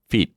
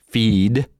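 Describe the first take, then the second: First: "feed" clipped to "feet" with short vowel; short word ending in T; short, voiceless ending. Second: "feed" stretched, rising, ending in D; long "feed" with voiced D. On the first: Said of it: "Jedno je delší". (krátké „feet“ s T na konci) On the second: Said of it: "Jedno je delší a obsahuje Dčko". (dlouhé „feed“ se znělým D) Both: Shown as a demonstration.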